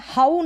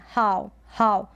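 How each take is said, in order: First: हाउ as "haa-oo"; हाउ with a separate oo; wrong two syllables. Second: हाउ as one-syllable "how"; हाउ said like English "how"; ow diphthong. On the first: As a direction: push out the final oo of हाउ. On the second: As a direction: glide हाउ into a single "ow". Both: Shown as a demonstration. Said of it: "ये है हाउ नहीं".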